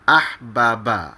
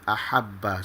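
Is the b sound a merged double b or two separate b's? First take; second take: separate; merged. First: Two separate b sounds with a vowel between. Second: The two b sounds merge into one doubled b. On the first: This is the original underlying form. "asalnya adalah ahbaba" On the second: This is the actual merged form used. "bergabung menjadi ahabba"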